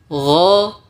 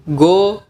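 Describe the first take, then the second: First: The consonant is a throaty gh from the throat. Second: The consonant is a hard g from the tongue. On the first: The speaker calls it right. "ghain keluar dari ujung tenggorokan" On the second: The speaker calls it wrong. "abjad Indonesia go"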